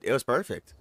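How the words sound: It is said in a hesitant, unsure tone. The speaker has doubts about it.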